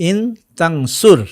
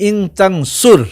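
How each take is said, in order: No difference in how they are said.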